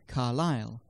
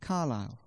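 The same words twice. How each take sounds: First: It is said in the standard pronunciation. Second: It is said in the local pronunciation.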